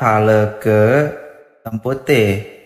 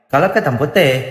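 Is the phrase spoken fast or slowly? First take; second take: slowly; fast. First: The phrase is spoken slowly and clearly. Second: The phrase is spoken very fast and slurred. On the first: "pas dia ngomong pelan-pelan gitu" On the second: "cepet banget lagi ngomongnya"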